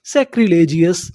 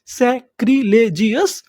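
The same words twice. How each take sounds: First: Said in the usual way. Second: सैक्रिलेजियस said slowly with a rising end; slow model reading. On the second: Shown as a demonstration. Teacher repeats the word slowly for the class. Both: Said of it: "उसे हम लोग क्या बोलते हैं".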